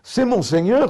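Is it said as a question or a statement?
question. It is said with a questioning tune. It challenges the claim that this is the Lord. "c'est cela que vous prétendez être mon Seigneur?"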